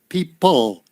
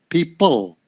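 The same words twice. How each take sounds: No difference in how they are said.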